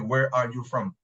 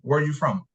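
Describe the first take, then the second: First: Each word is pronounced fully and separately. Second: The words are run together and reduced. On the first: "I don't say, ... A whole sound, a whole pronunciation" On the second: "I always contract, make contraction"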